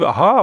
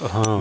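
First: The aha sounds pleased and positive. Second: The aha sounds unimpressed and negative. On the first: The speaker welcomes the news. "war das jetzt wirklich positiv?" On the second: The speaker is not pleased by the news. "oder war das aha?"

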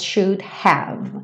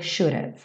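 First: Both words are said fully and separately. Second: The words are joined into a short reduced form. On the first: "ele faz should have porque ele tem tempo na métrica" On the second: "mas poderia ser should have"

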